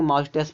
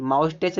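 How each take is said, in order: First: माउस टेस्ट said "maush-tes", ending in a sibilant. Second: माउस टेस्ट said "maush-tech", ending in "ch"; CH as "cha". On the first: Teacher giving students the reading, माउस टेस्ट ending in "s". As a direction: end माउस टेस्ट on an "s" sound. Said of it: "बड़ा सा का sound निकल रहा है". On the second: Teacher showing the misreading, माउस टेस्ट ending in "ch". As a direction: end माउस टेस्ट on a "ch" sound. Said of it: "माउस टेस्ट नहीं पढ़ेंगे". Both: Shown as a demonstration.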